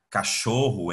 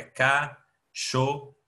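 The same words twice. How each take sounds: First: Said in the usual way. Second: "cachorro" slowly, pausing between ca, cho and rro; split into syllables. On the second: Shown as a demonstration. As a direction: say "cachorro" one separate syllable at a time. ("cachorro" separado em sílabas, bem devagar) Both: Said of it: "se eu for separar a sílaba".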